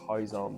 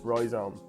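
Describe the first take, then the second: First: The word begins without a clear R sound. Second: The word begins with a clear R sound. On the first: The speaker calls it wrong. "my wife's Portuguese and they don't pronounce the R, so I was about to say rhizome" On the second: The speaker calls it right. "but it's rhizome"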